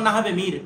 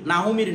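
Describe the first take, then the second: First: "নাহাবে মির" with na-ha-be, not na-hu; correct pronunciation. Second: "নাহু মির" with na-hu in place of nahabe; wrong pronunciation. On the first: Teacher giving the book title as an example, "নাহাবে মির" as nahabe. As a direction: say "নাহাবে মির" with an a in the second syllable. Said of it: "নাহু মির নয়". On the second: Teacher rejecting the wrong book title, "নাহু মির" with u. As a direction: say "নাহু মির" with an u before mir. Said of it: "নয়". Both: Shown as a demonstration.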